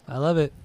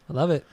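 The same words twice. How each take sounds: The two takes are said the same way.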